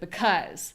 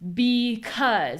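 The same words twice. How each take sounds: First: The first vowel is reduced and unstressed. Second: The first vowel is a full ee sound. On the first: The speaker calls it right. "instead of because" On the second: The speaker calls it wrong. "People say because"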